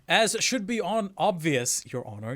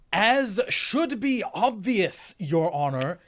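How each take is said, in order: First: It is said with only mild sarcasm. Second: It is said with heavy, dripping sarcasm.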